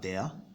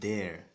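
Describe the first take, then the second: First: It is said with a British accent. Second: It is said with an American accent. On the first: "That's for the British" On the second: "the Americans would rather pronounce it as there"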